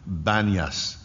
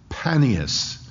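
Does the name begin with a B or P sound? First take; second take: B; P. First: The name begins with a B sound. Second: The name begins with a P sound. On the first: This is what local people call it today. "can't pronounce the P, so it's called Banias" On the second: This is the older name after the god Pan. "it's in the area that's called Panias"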